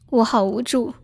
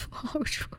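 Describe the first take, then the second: First: Said in the usual way. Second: Breathy whisper, barely voiced, with a giggle; mock-helpless whisper under a laugh; playful whisper. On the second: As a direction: whisper it like a pouting child. Whispered repeat, playful self-pity.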